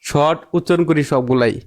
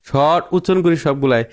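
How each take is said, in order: No difference in how they are said.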